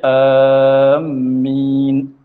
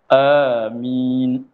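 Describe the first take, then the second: First: Long first vowel and a doubled m. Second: Long first vowel and a single m. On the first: "panjangkan hamzah serta tasydid akan mim" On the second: "panjangkan hamzah, mim tidak bertasydid"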